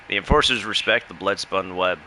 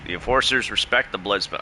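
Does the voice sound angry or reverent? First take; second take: reverent; angry. First: The line is read in a reverent tone. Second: The line is read in an angry tone. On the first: The character holds them in deep respect. The speaker calls it right. "She's actually reverent" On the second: The character seems hostile toward them. The speaker calls it wrong. "why do you sound angry?"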